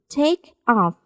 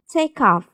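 First: The two words are said separately, unlinked. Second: The k runs straight into off, linked.

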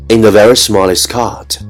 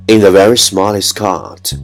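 The two takes are said the same way.

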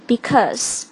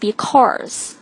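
First: It is said without an r sound. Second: It is said with an added r sound. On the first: The speaker calls it right. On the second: The speaker calls it wrong.

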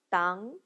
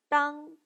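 First: The pitch rises from mid to high. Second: The pitch stays high and level.

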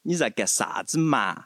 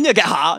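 First: It is said softly, Chengdu style, with drawn-out vowels. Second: It is said bluntly and fiercely, Chongqing style.

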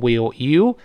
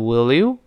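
First: The two words are said separately. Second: The two words are linked together. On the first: The speaker calls it wrong. "所以不能读成will you" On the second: The speaker calls it right. "连读变成will you"

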